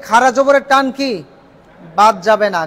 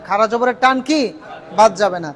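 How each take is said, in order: Both takes have the same delivery.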